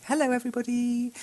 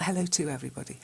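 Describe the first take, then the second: First: "Hello, everybody" said lightly higher as the right form; corrected greeting. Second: Said in the usual way. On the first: Shown as a demonstration. Teacher correcting a learner's greeting, modelling the right form.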